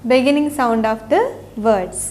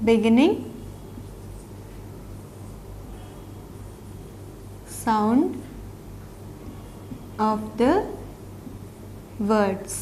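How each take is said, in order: First: Slow, joined title. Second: Word by word. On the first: Teacher to children, saying the whole title slowly. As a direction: say "Beginning sound of the words" as one slow, even phrase. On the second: Teacher to children, reading the title word by word. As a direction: say beginning, sound, ఆఫ్ ద, words slowly, each word alone with long gaps, softer toward the end. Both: Shown as a demonstration.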